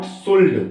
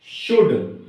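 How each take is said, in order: First: "शुल्ड" with an audible L before the D; wrong-way "शुल्ड", L audible; L sounded. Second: "शुड" with the vowel straight into D; "शुड", L dropped; silent L. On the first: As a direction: say "शुल्ड" pronouncing the L. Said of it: "not शुल्ड". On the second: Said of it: "हम L silent छोड़ेंगे". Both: Shown as a demonstration.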